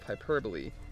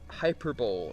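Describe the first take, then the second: First: It is pronounced in the usual accepted way. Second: It is pronounced by sounding out the spelling. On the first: The speaker calls it right. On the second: The speaker calls it wrong.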